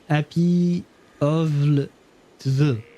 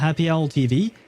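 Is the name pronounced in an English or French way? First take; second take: French; English. First: The name is said with French letter sounds. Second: The name is said the plain English way. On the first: The speaker calls it wrong. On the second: The speaker calls it right.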